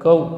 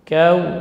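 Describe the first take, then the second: First: The vowel after k drifts toward an 'o' sound. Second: The vowel after k stays a clear open 'a'. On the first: The speaker calls it wrong. "bukan kau, sehingga kaf menjadi bunyi cenderung ke o" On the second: The speaker calls it right. "Kau, gitu ya"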